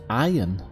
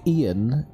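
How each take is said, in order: First: The name is said like the word iron. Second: The name is said the usual English way. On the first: "in a lot of places in America is pronounced iron" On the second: "the name Ian in English"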